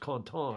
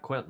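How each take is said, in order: First: The name is pronounced with French sounds. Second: The name is pronounced with English sounds. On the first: The speaker calls it right. "It's Contan, I think, in French" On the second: The speaker calls it wrong. "not Quentin like we all say in English"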